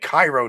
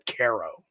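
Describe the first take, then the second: First: It is said like the Egyptian city, 'Ky-ro'. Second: It is said with a long A, 'Kay-ro'. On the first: This is how the name is usually known. "spelled like Cairo" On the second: This is how the locals in New York say it. "we all call it Caro"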